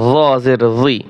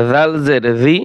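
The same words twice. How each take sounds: First: জি with a heavy, emphatic Arabic zha sound; similar-letter contrast. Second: জি with a light dhal sound, tongue between teeth; similar-letter contrast. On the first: Teacher contrasting look-alike sounds, heavy emphatic জি. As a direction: thicken জি into a dark, full-mouthed "zwee". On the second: Teacher contrasting look-alike sounds, light dhal in জি. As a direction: say জি as thin, voiced "dhee". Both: Shown as a demonstration. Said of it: "একটা হরফের উচ্চারণ অন্য হরফের সাথে মিলে যায়".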